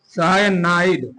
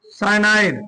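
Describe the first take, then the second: First: cyanide stretched out slowly, lower; cyanide at half pace, for copying down; slow dictation. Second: Said in the usual way. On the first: Shown as a demonstration. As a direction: draw out each syllable of cyanide. Teacher repeats it slowly for writing.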